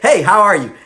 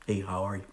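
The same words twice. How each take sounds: First: It is said with passion and energy. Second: It is said weakly, with little energy.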